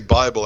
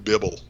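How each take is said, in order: First: The first vowel is long, as in 'bye'. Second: The first vowel is short, as in 'bib'. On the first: "I would never say Bible" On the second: "Why do you pronounce it Bibble?"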